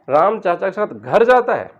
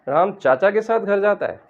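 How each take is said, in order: First: The word घर carries the stress. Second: The word चाचा carries the stress. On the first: He goes home, not to school or temple. "घर पर थोड़ा stress दें" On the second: He goes with his uncle, not another relative. "अगर हम चाचा पर stress देंगे"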